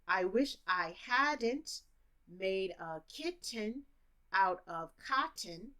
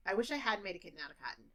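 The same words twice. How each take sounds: First: Slow, sentence broken into three chunks; slow chunked teaching version. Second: The whole sentence rushed, fast; fast native speed. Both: Shown as a demonstration. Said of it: "if I'm a teacher".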